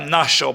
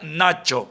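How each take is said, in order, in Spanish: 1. La CH se pronuncia al estilo paraguayo. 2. La CH se pronuncia al estilo argentino. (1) "no se pronuncia Nacho, por ejemplo, como en Paraguay" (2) "Se pronuncia Nacho"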